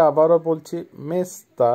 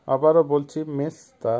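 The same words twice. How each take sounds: The two takes are said the same way.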